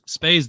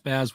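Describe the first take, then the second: First: The name has a long A vowel. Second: The name has a short A vowel. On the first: The speaker calls it wrong. "if you call him Spaze" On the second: The speaker calls it right. "Spaz with a short A vowel sound"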